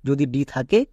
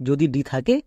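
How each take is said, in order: Both takes have the same delivery.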